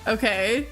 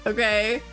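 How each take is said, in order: The two takes are said the same way.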